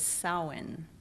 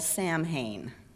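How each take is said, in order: First: It is said the Gaelic way, close to 'saun'. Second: It is sounded out letter by letter as spelled. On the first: The speaker calls it right. "The Gaelic um, or Old Irish pronunciation is Samhain or Saun" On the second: The speaker calls it wrong. "which I always called Samhain. I would see it written S A M H A I N, and that's what I thought it was, but that's not the pronunciation"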